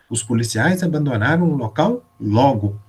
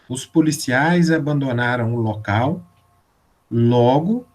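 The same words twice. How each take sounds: First: There is a pause after the word logo. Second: There is a pause before the word logo. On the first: The officers left the place quickly. "se eu colocar a vírgula depois de logo" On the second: As a result, the crimes started again. "logo tem um sentido consequencial"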